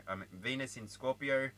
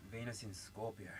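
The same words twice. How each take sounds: First: Said in the usual way. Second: Softer, half to herself; hushed repeat. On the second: Real, not acted. Reader repeating the sign softly to herself. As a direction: murmur it again under your breath.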